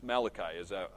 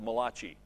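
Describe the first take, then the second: First: The name is said with a plain English pronunciation. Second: The name is said with an Italian-sounding pronunciation. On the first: The speaker calls it right. "that's how I would say it anyway" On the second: The speaker calls it wrong. "that very famous Italian prophet called Malachi"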